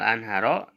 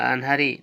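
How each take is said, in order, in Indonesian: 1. Kata ini diakhiri dengan vokal a. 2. Kata ini diakhiri dengan vokal i. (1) "mansubnya al-anharo tanda mansubnya fathah" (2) "majrurnya al-anhari tanda majrurnya kasroh"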